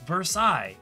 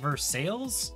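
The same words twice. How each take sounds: First: It is said with the French pronunciation. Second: It is said as English spelling suggests. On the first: The name keeps its French origin. "it's intended to be pronounced Versailles" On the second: The name is treated as an English word. "pronouncing Versailles as Versailles, because it's phonetically spelled that way"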